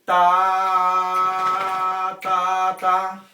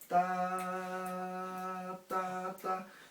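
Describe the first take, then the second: First: The syllables are said loudly and strongly. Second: The syllables are said at normal volume. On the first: "Isso seria o forte" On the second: "ao invés de eu fazer"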